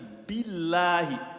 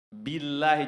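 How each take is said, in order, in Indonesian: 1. L ganda ditahan dan ditekan dengan tegas. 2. L mengalir ringan tanpa bunyi ganda yang ditahan. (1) "billahi menghujam" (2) "jangan mengalir"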